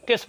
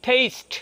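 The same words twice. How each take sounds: First: টেস্ট with a short pure e; wrong short vowel. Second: টেস্ট as "teyst", with ei glide; corrected long vowel. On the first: Teacher mimics learners' slip for taste, টেস্ট as "test". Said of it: "বলে ফেলেন". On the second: Teacher corrects to taste, টেস্ট as long "teyst". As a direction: stretch টেস্ট into a higher "teyst". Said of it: "হবে টেস্ট". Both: Shown as a demonstration.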